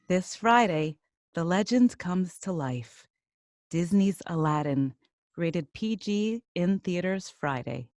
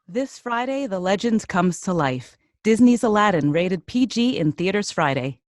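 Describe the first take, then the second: First: It is read very slowly. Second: It is read at a quicker pace.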